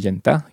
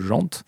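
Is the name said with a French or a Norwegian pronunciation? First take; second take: Norwegian; French. First: The name is said with a Norwegian pronunciation. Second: The name is said with a French pronunciation.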